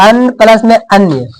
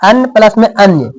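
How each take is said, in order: Both takes have the same delivery.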